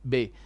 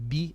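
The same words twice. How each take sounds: First: The vowel after b drifts toward an 'eh' sound. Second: The vowel after b is a clear 'ee' sound. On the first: The speaker calls it wrong. "this is a mistake" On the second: The speaker calls it right. "It should be read properly"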